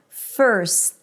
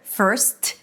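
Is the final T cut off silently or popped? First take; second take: cut off; popped. First: The S is held and cut off without a pop. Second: The final T is released with an audible pop. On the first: The speaker calls it right. "I just held the S" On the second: The speaker calls it wrong. "I don't need to pop the T to let the world know that there is a T there"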